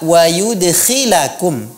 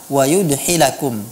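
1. Konsonan di tengah itu kh yang kasar dan bergesek. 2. Konsonan di tengah itu h yang halus dan berdesah. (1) "ini seharusnya dibaca dengan kha" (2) "bukan dengan huruf ha. Tapi yang Ustaz dengar"

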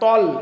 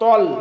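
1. ṭa ধ্বনিটি জোরালো ও ভারী। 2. ṭa ধ্বনিটি জোরালো ও ভারী।

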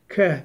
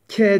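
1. “k” daha geride ve kalın çıkıyor. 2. “k” çok önde ve ince çıkıyor. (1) "biraz geriden" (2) "ke değil"

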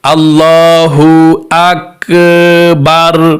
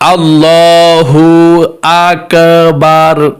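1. স্বরধ্বনিগুলো লম্বা টান দিয়ে টেনে বলা হয়। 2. স্বরধ্বনিগুলো লম্বা টান দিয়ে টেনে বলা হয়।

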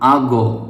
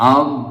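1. শেষ ব্যঞ্জনটি একটি প্রতিধ্বনিত ধাক্কা দিয়ে ছাড়া হয়। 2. শেষ ব্যঞ্জনটি ধাক্কা ছাড়াই পরিষ্কারভাবে থামে। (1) "এখানে কলকলা করে ফেলি, এখানে কলকলা করা যাবে না।" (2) "শব্দটি এভাবে উচ্চারণ করবেন"

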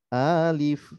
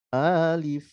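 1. Vokal pertama dibaca panjang. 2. Vokal pertama dibaca panjang.

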